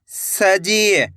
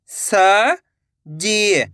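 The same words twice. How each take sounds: First: Said in the usual way. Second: "सजी" split with a pause; rising स, pause, then जी in "सजी"; syllable by syllable. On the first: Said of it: "तो मिलके बन जाएगा". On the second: Shown as a demonstration. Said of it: "एक एक अक्षर का उच्चारण". ("सजी" को तोड़कर, स... जी)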